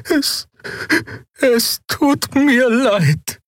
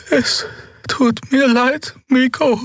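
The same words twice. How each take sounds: First: Very high, very slow falling apology; trembling slow apology. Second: Very high, slow breathy apology; breathy whisper. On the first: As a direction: drag it out in fear. Xea frightened apology. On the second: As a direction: breathe it out, frightened. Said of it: "hauchte sie". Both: A narrator's reading.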